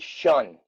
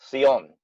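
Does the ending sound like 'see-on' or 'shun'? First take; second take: shun; see-on. First: The ending is said like 'shun', with an sh sound. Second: The ending is said like 'see-on', Spanish style. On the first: "ours is more of an S H. So we say shun" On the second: "you might use a C I O N, Sion"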